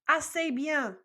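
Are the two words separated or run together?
run together. The two words are run together quickly.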